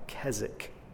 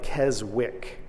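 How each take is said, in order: First: The name is said differently from its spelling. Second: The name is sounded out just as spelled. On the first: The speaker calls it right. "but it's pronounced like Keswick" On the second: The speaker calls it wrong. "It's spelled like Keswick"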